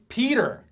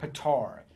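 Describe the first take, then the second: First: The second syllable sounds like 'ter'. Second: The second syllable sounds like 'tar'. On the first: The speaker calls it right. "I literally caught myself yelling, "It's Peter!"" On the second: The speaker calls it wrong. "he keeps calling him Petar"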